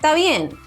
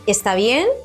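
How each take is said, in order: First: The first word is shortened to ta. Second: The first word is said in full as está. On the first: "you can say" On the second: "instead of saying está bien"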